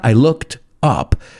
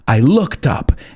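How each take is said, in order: First: There is a pause between looked and up. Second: Looked and up run together without pause. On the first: The speaker calls it wrong. "It's not I looked up" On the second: The speaker calls it right. "I put it all together. There's no pause"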